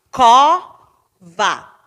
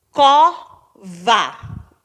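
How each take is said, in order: First: "Cova" with a very loud, long "Co", then a separate "va"; stress on CO. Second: "Cova" cut into "Co" and "va", each given weight; syllable by syllable. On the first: Teacher showing the strong penultimate syllable, heavily stressed CO in "Cova". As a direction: belt the first syllable of "Cova". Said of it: "penúltima sílaba". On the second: Teacher counting last and second-to-last, evenly split "Cova". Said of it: "última e penúltima". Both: Shown as a demonstration.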